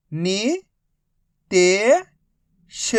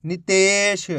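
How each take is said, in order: First: नि-ते-श said very slowly; three slow separate syllables of नितेश. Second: Said in the usual way. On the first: Shown as a demonstration. Teacher spells syllables slowly.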